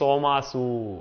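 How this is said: The word begins with an s sound. This is how Saurashtra speakers say it. "આખો વ્યવહાર સ થી સૌરાષ્ટ્રમાં ચાલે છે"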